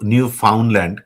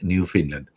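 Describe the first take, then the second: First: The middle syllable is said as 'found'. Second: The middle syllable is said as 'fin'. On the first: This follows the spelling. The speaker calls it wrong. "বানানটা হলো new ফাউন্ডল্যান্ড" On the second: This is how locals say it. The speaker calls it right. "ওরা উচ্চারণ করে new ফিনল্যান্ড"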